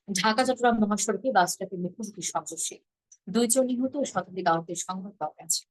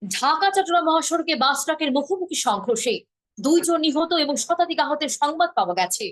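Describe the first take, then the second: First: Even, falling, restrained news read; Bangladeshi news style. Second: Higher, dramatic, slow rising news read; Indian news style. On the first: Teacher demoing the plain Bangladeshi way of reading a headline. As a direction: read it straight and sober, no swoops. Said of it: "আমরা করি কিভাবে?". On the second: Teacher demoing how Indian channels read a tragedy headline, high and lilting. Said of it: "ওরা এইভাবে বলে যে". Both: Shown as a demonstration.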